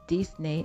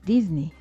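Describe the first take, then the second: First: It is said with a French pronunciation. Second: It is said with an English pronunciation. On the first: The speaker calls it wrong. "en tant que francophone, on a pris l'habitude de prononcer Disney" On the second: The speaker calls it right. "Il faut plutôt prononcer Disney"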